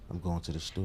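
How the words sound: It is said in a low, seductive voice.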